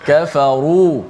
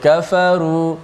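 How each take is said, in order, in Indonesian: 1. Bunyi r dibaca tebal dan berat. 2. Bunyi r dibaca tipis dan ringan. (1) "kalau baca bagi tebal" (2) "Tak boleh baca kafaru"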